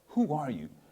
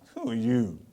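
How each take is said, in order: First: It is said in a plain, neutral tone. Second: It is said in a sarcastic, doubting tone. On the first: A simple request for the person's identity. "She says" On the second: A challenge questioning the person's standing. "But she was really saying, there was some sarcasm behind her voice"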